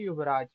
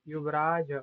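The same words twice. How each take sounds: First: The word ends on a consonant, no final vowel. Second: The word ends with a final vowel sound. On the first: The speaker calls it wrong. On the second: The speaker calls it right.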